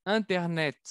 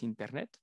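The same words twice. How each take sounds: First: Internet with a crisp final T; pronounce the T. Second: Internet with the T clearly released; final T sounded. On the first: Teacher shows French Internet, T sounded. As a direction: land the T at the end of Internet. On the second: Teacher repeats internet, stressing the T. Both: Shown as a demonstration. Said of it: "tenemos que pronunciar la T".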